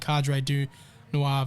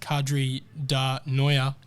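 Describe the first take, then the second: First: The name ends with a 'nwar' sound. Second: The name ends with a 'noya' sound. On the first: "me and Nick debating Cadre du Noir" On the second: "the way you used to say it"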